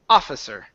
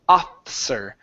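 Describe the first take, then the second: First: A clear vowel is said after the f. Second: The middle vowel after the f is skipped. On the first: The speaker calls it right. "so it needs to be offi, barara, offi, officer" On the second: The speaker calls it wrong. "You're saying officer, officer. ... you're skipping over that I"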